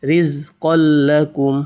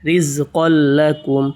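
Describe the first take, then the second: Both takes have the same delivery.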